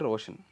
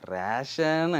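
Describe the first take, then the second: First: The first vowel is an 'o' sound. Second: The first vowel is an 'e' sound. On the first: This is the name as it really is. The speaker calls it right. "నా పేరు రోషన్" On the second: This is how someone else mispronounced the name. The speaker calls it wrong. "గట్టిగా వినిపించి రేషన్ అనేవాడు"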